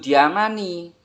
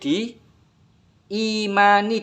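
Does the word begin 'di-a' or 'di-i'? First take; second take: di-a; di-i. First: The second syllable has an a sound. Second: The second syllable has an i sound. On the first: The speaker calls it wrong. "dudu diamani" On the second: The speaker calls it right. "Kitab suci yang wajib di imani dudu diamani"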